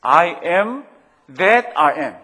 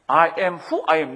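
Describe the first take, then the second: First: Said in the usual way. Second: "I am who I am" said very slowly, leaning hard on "who" and falling at the end; stress on who. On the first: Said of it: "reads the name two ways". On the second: Shown as a demonstration. Preacher showing the congregation God's name, slow with "who" stressed. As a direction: spell it out word by word, punching "who". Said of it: "slowed, stressed on who".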